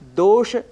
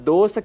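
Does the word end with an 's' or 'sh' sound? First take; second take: sh; s. First: The word ends with an sh sound. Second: The word ends with an s sound. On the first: The speaker calls it right. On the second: The speaker calls it wrong.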